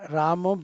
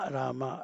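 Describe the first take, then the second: First: The name ends with a final 'o' vowel. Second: The name ends with a final 'a' vowel. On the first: The speaker calls it wrong. "रामो बिल्कुल नहीं बोलना चाहिए" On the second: The speaker calls it right. "रामा रामा"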